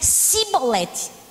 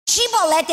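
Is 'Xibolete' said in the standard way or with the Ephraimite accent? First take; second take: Ephraimite accent; standard. First: It is said with the Ephraimite accent. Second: It is said in the standard way, without the accent. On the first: "o efraimita não conseguia dizer Xibolete por causa do sotaque" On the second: "diga Xibolete"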